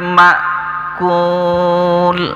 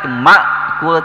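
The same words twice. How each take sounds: First: The glottal stop is said lightly. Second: The glottal stop is pressed hard. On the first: The speaker calls it right. "tapi ma'kul" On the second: The speaker calls it wrong. "Jangan terlalu ditekan juga, ma'kul tidak"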